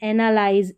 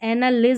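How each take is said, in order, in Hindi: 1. आखिरी अक्षर में लंबा 'eye' स्वर है। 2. आखिरी अक्षर में छोटा 'i' स्वर है।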